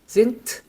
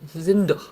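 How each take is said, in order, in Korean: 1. 이 단어는 무성 t 소리로 끝납니다. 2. 이 단어는 유성 d 소리로 끝납니다. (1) "드가 아니고 트가 됩니다" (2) "이게 안 되거든요"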